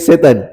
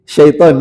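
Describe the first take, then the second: First: It begins with plain s and ends in -etan. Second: It begins with sh and ends in -aiton. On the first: The speaker calls it wrong. "jangan lagi setan" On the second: The speaker calls it right. "biasakan ambil bahasa Arabnya syaiton"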